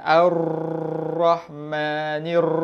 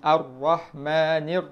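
First: The r is rolled long with many trills. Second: The r has only a light, brief trill. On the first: The speaker calls it wrong. "ah tu salah ... exaggerate" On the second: The speaker calls it right. "tak tak perlu getar banyak sangat"

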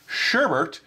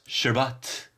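First: The second syllable has an r sound. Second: The second syllable has no r sound. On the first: "with an additional R in the second syllable and pronounced Sherbert" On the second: "pronounced sherbet"

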